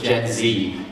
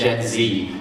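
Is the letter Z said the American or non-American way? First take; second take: American; American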